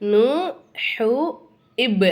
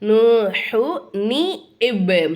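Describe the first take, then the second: First: The words join without any added 'ni' sound. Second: An added 'ni' sound links the two words. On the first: The speaker calls it wrong. "அப்படி சொல்லக்கூடாது" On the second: The speaker calls it right. "நியூனை கொண்டாந்து என்ன பண்ணிக்கணும்? ஜாயின் பண்ணிக்கணும்"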